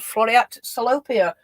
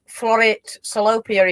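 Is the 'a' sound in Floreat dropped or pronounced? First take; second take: pronounced; dropped. First: The 'a' in Floreat is pronounced. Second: The 'a' in Floreat is left out.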